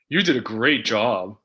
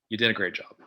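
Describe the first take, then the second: First: It is said in a sarcastic tone. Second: It is said in a reluctant tone. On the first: The speaker means the opposite of the praise. "Sarcastic would be" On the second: The speaker does not want to admit the success. "Reluctant, maybe you don't want to admit that someone did a great job"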